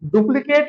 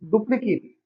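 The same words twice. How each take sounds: First: The last syllable sounds like 'ate'. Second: The last syllable sounds like 'it'. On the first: The word is used as a verb. The speaker calls it wrong. "डुप्लीकेट ना पढ़कर" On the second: The word is used as a noun or adjective. The speaker calls it right. "आप उसे बोलेंगे डुप्लीकेट। यहां पर sound आएगी इट की।"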